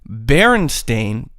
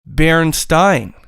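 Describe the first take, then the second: First: The last syllable sounds like 'stain'. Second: The last syllable sounds like 'stine'. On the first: The speaker calls it right. "B E R E N S T A I N" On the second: The speaker calls it wrong. "B E R E N S T E I N"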